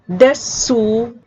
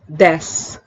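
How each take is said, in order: First: The final u vowel is pronounced. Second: The final u vowel is dropped.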